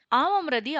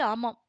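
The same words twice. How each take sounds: First: ஆமாம் said louder with a rising pitch; ஆமாம் flung out with a bitter rise; ஆமாம் stressed, rising at the end; emphatic yes. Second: Said in the usual way. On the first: A narrator's reading. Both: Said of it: "அவருடைய குரல் தழுதழுத்தது".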